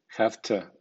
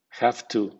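First: "have to" as "haftə"; voiceless f, reduced "tə"; weak to. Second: "have to" as "haftoo"; voiceless f, full "too". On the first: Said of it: "con acento débil". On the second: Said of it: "con acento medio". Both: Shown as a demonstration.

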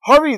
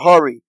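First: Sharp, much higher urgent call; urgent angel's command; insistent. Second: Said in the usual way. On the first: A narrator's reading. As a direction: urge him on, quick and high. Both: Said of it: "the angels became insistent".

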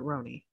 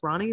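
First: "Roni" with a long OH in the first syllable. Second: "Ronnie" with an open AH in the first syllable. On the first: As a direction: say "Roni" as ROH-nee. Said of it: "or is it Roni". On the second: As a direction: say "Ronnie" as RAH-nee. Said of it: "It is pronounced Ronnie, or is it Roni". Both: Shown as a demonstration.

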